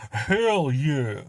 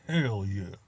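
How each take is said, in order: First: Louder, higher and pumped up; a big proud whoop; excited cheer. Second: Said in the usual way. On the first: Retold or imitated. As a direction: belt it out like a celebration. Trying out West African pride.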